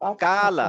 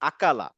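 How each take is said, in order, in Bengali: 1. স্বরধ্বনিগুলো টেনে লম্বা করে বলা হয়। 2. স্বরধ্বনিগুলো ছোট ও ঝটপট করে বলা হয়। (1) "একটু টান দিয়ে বলছে" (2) "টান দেওয়া যাবে না"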